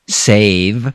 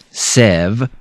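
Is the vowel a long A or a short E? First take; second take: long A; short E. First: The vowel is a long A sound. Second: The vowel is a short E sound. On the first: The speaker calls it right. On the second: The speaker calls it wrong.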